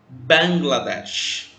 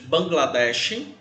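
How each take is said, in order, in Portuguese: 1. O nome é falado com a pronúncia inglesa. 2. O nome é falado com a pronúncia portuguesa.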